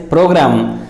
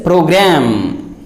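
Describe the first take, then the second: First: Program ending in -gram with an open "ah"; wrong pronunciation. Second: Program with a drawn-out "a" as in cat; correct pronunciation. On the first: Teacher showing most speakers' mistake, program as PRO-grahm. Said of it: "make wrong pronunciation of that word". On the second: Teacher correcting most speakers, program said PRO-graem. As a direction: say program as PRO-graem, last vowel long. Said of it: "but it is not program". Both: Shown as a demonstration.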